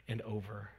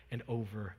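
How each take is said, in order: Both takes have the same delivery.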